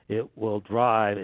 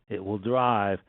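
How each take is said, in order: Both takes have the same delivery.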